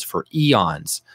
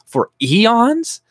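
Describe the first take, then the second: First: Said in the usual way. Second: For eons? thrown back high and loud with a rising disbelieving tune; outraged rhetorical question; incredulous echo. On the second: Shown as a demonstration. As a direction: repeat For eons? in mock disbelief.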